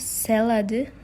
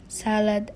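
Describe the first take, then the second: First: An extra e vowel sound is added. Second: It is said without an added vowel sound.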